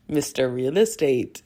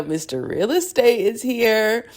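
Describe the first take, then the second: First: Faint hint of a Russian accent on "Mister Real Estate"; lightly sketch a Russian accent. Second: Slower, higher, hammed-up Russian accent. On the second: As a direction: lean into a bad Russian accent. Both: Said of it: "my Russian accent is trash".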